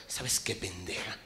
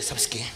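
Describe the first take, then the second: First: Whispered ¿sabes qué? with pent-up rage; too angry to speak aloud; seething hush; furious whisper. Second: Said in the usual way. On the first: Retold or imitated. Enraged man hisses at wife.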